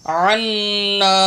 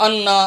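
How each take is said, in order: First: عنا slowly chanted from a throaty ain; correct recitation. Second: عنا begun with a bare alif vowel; wrong reading. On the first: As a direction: hold the n and final a of عنا. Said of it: "عین نون زبر عن". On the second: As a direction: mimic the mistake, quick عنا without ain. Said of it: "یہاں بھی لوگ غلط پڑھتے ہیں". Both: Shown as a demonstration.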